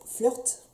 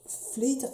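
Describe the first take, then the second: First: Flirt said level, with a French r, flœrt; corrected English try. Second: Flirt tried high and rising, ending like flid; testing the English word Flirt with a rising question; unsure English try. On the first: Vlogger retries the lipstick name, steadier. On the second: Vlogger unsure how to say the lipstick name, rising. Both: Shown as a demonstration. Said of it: "Flirt, je sais pas".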